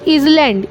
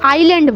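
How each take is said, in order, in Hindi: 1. s की ध्वनि बोली जाती है। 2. s की ध्वनि साइलेंट है। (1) "ज़्यादातर सारे लोग क्या करते हैं" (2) "इसको हम आइलैंड बोलते हैं"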